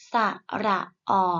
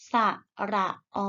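First: ออ cut short with an abrupt stop; short vowel. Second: ออ held long and steady; long vowel. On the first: Teacher models vowels for pupils to repeat, short ออ. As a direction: say ระออ with a brief, checked final vowel. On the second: Teacher models vowels for pupils to repeat, long ออ. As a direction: say ระออ with a drawn-out final vowel. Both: Shown as a demonstration. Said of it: "ไปฝึกอ่านออกเสียงสระ".

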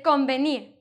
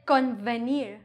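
First: Convenir with n blending into a soft b; softer blend. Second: Convenir with a clear n, then English v; separated n and v. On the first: Teacher showing what she says, softer blended convenir. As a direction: say convenir smoothly, like combenir. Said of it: "which sounds softer". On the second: Teacher showing what she doesn't say, convenir with distinct v. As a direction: say convenir as con plus venir, buzzing v. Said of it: "But I don't say convenir". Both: Shown as a demonstration.

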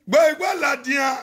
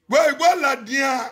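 First: Gbọ́ igbó làdìyàn shouted out quickly, Gbọ́ hit hardest; shouted repeat. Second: Said in the usual way. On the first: Acted. Speaker shouts Gbọ́ igbó làdìyàn again at viewers, fast. Repeats the phrase, then louder.

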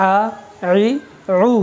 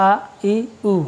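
First: "আ ই উ" squeezed from the throat as Arabic ain; slightly hard ain. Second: "আ ই উ" as ordinary open vowels; normal, not hard hamza. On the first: Teacher contrasting ain with hamza, slightly hard throat vowels. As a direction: harden each vowel of "আ ই উ" in the throat. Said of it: "এর উচ্চারণটা একটু hard হবে". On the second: Teacher showing the two letters differ, normal light hamza vowels. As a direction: say "আ ই উ" easily, with no throat squeeze. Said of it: "এটা normally হবে, বেশি hard না". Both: Shown as a demonstration.

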